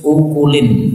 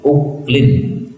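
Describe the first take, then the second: First: A vowel is heard between the k and l. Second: No vowel is heard between the k and l.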